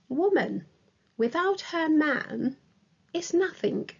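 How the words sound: It pauses after woman and after man. A woman is nothing without her man. "separated by comma. It is also separated by comma after without her man"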